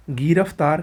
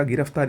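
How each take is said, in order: First: गिरफ्तार with long first "gee"; wrong pronunciation. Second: गिरफ्तार with short first "gi"; correct pronunciation. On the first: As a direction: stretch the first vowel of गिरफ्तार. (गिरफ्तार को "गीरफ्तार" बोलें) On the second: (गिरफ्तार में छोटी "इ") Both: Shown as a demonstration. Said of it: "ये तो आसान".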